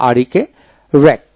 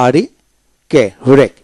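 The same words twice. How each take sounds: The two takes are said the same way.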